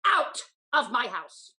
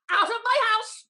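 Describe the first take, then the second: First: Slow, lower, louder command; angry order. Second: Higher, louder enraged cry; furious shout. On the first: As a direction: throw her out coldly. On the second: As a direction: scream her out the door. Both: Acted. Lady throwing out her servant.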